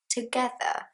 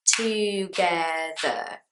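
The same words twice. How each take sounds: First: "Together" higher and softer, run together with all three syllables; three syllables, joined. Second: "together" very slow, in three separate beats; three syllables. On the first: Teacher repeats the word, joined-up three-syllable "Together". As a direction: say "Together" as a whole word, nothing dropped. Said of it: "Three syllables". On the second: Teacher shows all three syllables, "together" very slowly. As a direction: draw out "together" as too-ge-ther. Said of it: "three syllables". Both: Shown as a demonstration.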